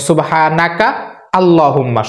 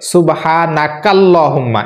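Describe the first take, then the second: First: The two words are said separately with a break. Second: The two words are linked together without a break. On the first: "শব্দ ভেঙে ভেঙে যদি বলেন" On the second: "এটা মিলিয়ে যদি পড়েন"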